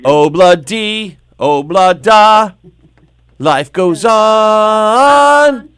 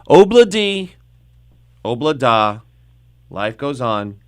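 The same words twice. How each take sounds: First: It is said with much more enthusiasm. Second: It is said flatly, without enthusiasm.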